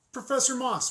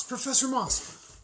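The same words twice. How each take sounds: First: High, loud call to get her attention. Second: High, loud and slower, stretching the name; calling out, drawn out. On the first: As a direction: hail her down the hallway. Calling after a colleague. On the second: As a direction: call her again, slower and more insistent. Calling after a colleague again. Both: Acted.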